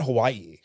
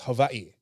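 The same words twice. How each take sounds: First: It is said the usual English way. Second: It is said the local Hawaiian way. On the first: This is how outsiders usually say it. The speaker calls it wrong. "technically we're mispronouncing it. It's not Hawaii" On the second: This is how people from the island want it said. The speaker calls it right. "It's Hawaii"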